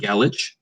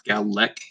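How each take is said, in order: First: The word ends without a K sound. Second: The word ends with a K sound. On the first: The speaker calls it wrong. "I do not want Galich" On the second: The speaker calls it right. "it's Galek. It's got a K sound at the end"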